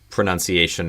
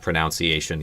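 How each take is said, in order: First: The second syllable sounds like 'nun'. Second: The second syllable sounds like 'noun'. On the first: The speaker calls it right. "pronunciation is pronounced pronunciation" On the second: The speaker calls it wrong. "not pronunciation, even though it's spelled like it would be pronounced"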